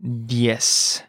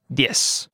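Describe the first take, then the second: First: "Diez" drawn out slowly; slow model. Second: Said in the usual way. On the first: Shown as a demonstration. Teacher modelling vocabulary for learners, slow "Diez". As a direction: stretch out each sound of "Diez".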